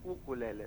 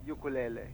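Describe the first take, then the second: First: The word begins with an 'oo' sound. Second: The word begins with a 'you' sound. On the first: This is the original Hawaiian name. The speaker calls it right. "yung totoong pangalan is ukulele from Hawaii" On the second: This is the common slang form. The speaker calls it wrong. "Medyo na-slang na yung ukulele"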